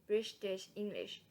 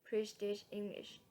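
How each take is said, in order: The two takes are said the same way.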